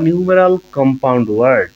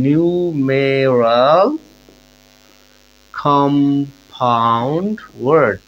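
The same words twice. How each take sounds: First: Said in the usual way. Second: Very slow, drawn-out syllables with long pauses between words; slow dictation. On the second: Shown as a demonstration. Teacher spelling out a new term for students, slow dictation. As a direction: stretch out each word as if for note-taking.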